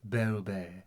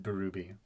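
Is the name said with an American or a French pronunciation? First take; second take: French; American. First: The name is said with a French pronunciation. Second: The name is said with an American pronunciation. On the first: "but it's supposed to be" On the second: "The American way of saying it is"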